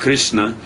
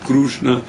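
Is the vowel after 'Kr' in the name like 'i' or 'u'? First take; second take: i; u. First: The first vowel sounds like 'i'. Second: The first vowel sounds like 'u'. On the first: "then Krishna's form of Krishna is going to have a e appearance" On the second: "the form of Krishna is going to have a u appearance on it"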